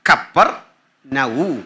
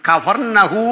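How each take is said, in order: First: The name is said with a doubled p sound. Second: The name is said with an f sound. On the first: The speaker calls it right. "ശരിക്കും പറയണ്ടേ" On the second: The speaker calls it wrong. "നമ്മൾ ഈ പറയുന്ന കഫർനഹൂം എന്നല്ല"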